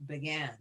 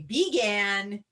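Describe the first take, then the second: First: BEGAN with a reduced first vowel, buh-GAN; schwa pronunciation. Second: BEGAN with a full long EE in the first syllable; full-vowel pronunciation. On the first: Teacher showing what we say, "began" with schwa, buh-GAN. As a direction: say "began" softer, first syllable a quick "buh". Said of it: "talk about a schwa sound". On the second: Teacher showing what we don't usually say, "began" pronounced BEE-gan. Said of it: "we don't usually say began". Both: Shown as a demonstration.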